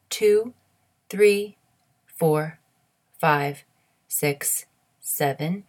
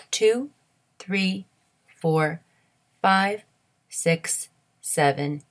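No difference in how they are said.

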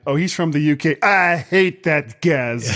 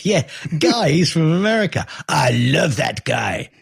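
First: Fake French accent. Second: High, hammed-up fake French accent. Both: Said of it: "Stupid fake French accent".

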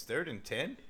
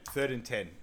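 First: "Third and ten" rising to a question; questioning echo. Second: Said in the usual way. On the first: Retold or imitated. Clueless player echoes "Third and ten", rising questioningly.

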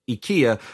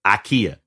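First: Said in the usual way. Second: "ikea" in a Tennessee accent, opening on an "ah" sound. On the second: Shown as a demonstration. Host joking how they say "ikea" in Tennessee, Southern accent. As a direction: say "ikea" as "ah-KEE-a", Tennessee style. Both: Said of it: "or as we say in Tennessee".

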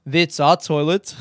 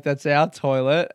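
First: Put-on clipped-vowel South African accent, a bit slower. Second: Said in the usual way. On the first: Camper telling a stranger it's their toilet, South African accent. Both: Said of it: "I'm not gonna do the accent anymore".

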